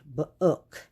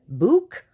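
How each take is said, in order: First: The vowel is a short uh sound. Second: The vowel is a long oo sound. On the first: The speaker calls it right. "let's try the uh sound" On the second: The speaker calls it wrong.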